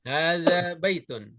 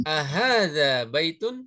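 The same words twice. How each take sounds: First: "Hadza baitun" slow, falling at the end; statement intonation. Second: "Ahadza baitun" slow, rising at the end; question intonation. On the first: Teacher models the answer for students, declarative "Hadza baitun". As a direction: state "Hadza baitun" as a fact, unhurried, settling downward. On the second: Teacher models a yes-no question for students, questioning "Ahadza baitun". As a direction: ask "Ahadza baitun" drawn out, lifting the last syllable. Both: Shown as a demonstration. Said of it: "Intonasi istifham, ya, dengan pernyataan itu berbeda".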